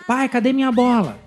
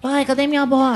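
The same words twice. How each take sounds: First: A child voice that sounds only mildly childlike. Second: A child voice that sounds much more childlike.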